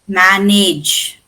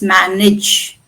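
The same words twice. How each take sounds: First: The last syllable has a full 'age' vowel. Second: The last syllable has a weak schwa vowel. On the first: The speaker calls it wrong. "We don't pronounce it as manage" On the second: The speaker calls it right. "It's manage"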